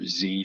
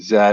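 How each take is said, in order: First: The letter is said the American way. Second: The letter is said the non-American way.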